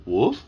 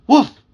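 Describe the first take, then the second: First: Short rising dog bark, spoken; questioning woof. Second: Loud, high dog bark, spoken; emphatic woof. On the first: Puppy asks his young owner what to do, questioning woof. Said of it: "although it came out". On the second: Puppy's whole speech comes out as one loud, high woof. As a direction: bark it out sharply. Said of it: "Although it came out". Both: A narrator's reading.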